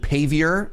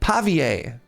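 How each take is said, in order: First: The word is pronounced the English way. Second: The word is pronounced the French way.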